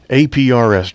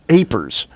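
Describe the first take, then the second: First: It is said as separate letters. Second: It is said as one word. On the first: The speaker calls it right. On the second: The speaker calls it wrong.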